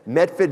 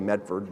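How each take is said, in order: First: It is said in the local town accent. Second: It is said in an ordinary, plain accent. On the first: This is how the townspeople say it. "that's how they say it" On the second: This is how most outsiders say it. "Most people say Medford"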